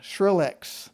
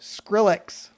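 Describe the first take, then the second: First: The name begins with a 'sh' sound. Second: The name begins with an 's' sound. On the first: The speaker calls it wrong. "It sounded like S H" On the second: The speaker calls it right. "I'm sorry"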